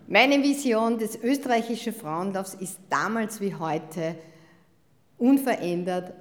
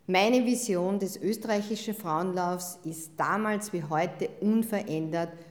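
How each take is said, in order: First: The line is said in a more cheerful tone. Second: The line is said in a fairly neutral tone.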